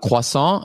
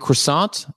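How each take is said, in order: First: Croissant is said with a French pronunciation. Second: Croissant is said with an English pronunciation. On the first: The speaker calls it right. "when you were pronouncing it as it should be pronounced in a French" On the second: The speaker calls it wrong. "you're mispronouncing it"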